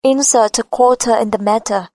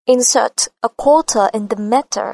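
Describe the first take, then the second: First: Flat American, T in "quarter" and "matter" near a D; flat American accent. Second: British accent, slow, T in "quarter" and "matter" crisp; British, hard T in "matter". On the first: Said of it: "Mà cô sẽ nói giọng rất bằng". (giọng Mỹ, "matter" đọc gần như "madder") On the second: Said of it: "Giọng cô giòn và sắc". (giọng Anh, chữ "matter" bật T giòn) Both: Shown as a demonstration.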